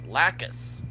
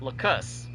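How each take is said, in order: First: The first syllable sounds like 'lack'. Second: The first syllable sounds like 'luck'. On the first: The speaker calls it right. "It's Lacus" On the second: The speaker calls it wrong. "it sounds like an L U C"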